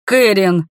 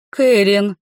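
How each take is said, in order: First: Sharp louder cry of her name. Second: Gasped Кэрин, sharp and louder; alarmed gasp. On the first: Kinar cries out as light strikes his beloved, sharp louder cry. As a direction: call her name in alarm. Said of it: "вскрикнул Кинар". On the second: Lady Lerisa gasps in alarm at Karin stepping forward, sharp louder gasp. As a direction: gasp her name in alarm. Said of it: "взволнованно ахнула леди Лериса". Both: A narrator's reading.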